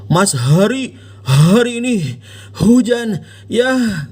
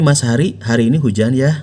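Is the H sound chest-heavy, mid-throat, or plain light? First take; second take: chest-heavy; plain light. First: The H sounds are pushed heavily from the chest. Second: The H sounds are plain and light. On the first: The speaker calls it wrong. "Anda nggak bilang" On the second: The speaker calls it right. "Biasa aja"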